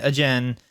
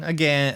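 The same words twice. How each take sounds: First: Again said as "a-jen"; again read as written, "a-zhen"; misread spelling. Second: Said in the usual way. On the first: Shown as a demonstration. Repeats word, mispronouncing the misspelling.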